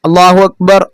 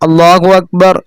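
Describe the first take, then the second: Both takes have the same delivery.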